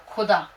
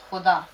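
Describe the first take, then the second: First: खुदा said with a hard aspirated k-h, no nukta; wrong Khuda. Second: खुदा with a throaty fricative kh, as in Khuda; correct Khuda. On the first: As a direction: show the mistake, खुदा as if written without the dot. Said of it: "अगर आपने यहाँ पे खुदा को ये पढ़ दिया". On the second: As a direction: say खुदा with the scraping kh sound, the nukta letter. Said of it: "देखिए खुदा". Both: Shown as a demonstration.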